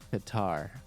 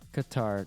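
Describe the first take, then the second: First: The A vowels are said long. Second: The A vowels are said short. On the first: The speaker calls it wrong. "not Qatar" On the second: The speaker calls it right. "The A's in Qatar are short. It's like Qatar"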